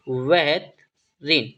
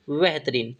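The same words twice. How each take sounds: First: बेहतरीन drawn out in two parts; slowly broken up. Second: Said in the usual way. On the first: Shown as a demonstration. Teacher repeating the Hindi meaning for students, slowly broken up. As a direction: stretch and split the word for learners.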